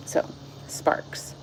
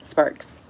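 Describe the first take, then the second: First: Whispered title, barely voiced. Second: Said in the usual way. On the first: Real, not acted. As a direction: breathe the chapter title out softly. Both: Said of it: "a different person read this the first time".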